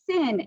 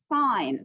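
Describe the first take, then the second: First: The word rhymes with 'pin'. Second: The word rhymes with 'pine'. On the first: The speaker calls it wrong. "This is not sin" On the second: The speaker calls it right. "it is sine"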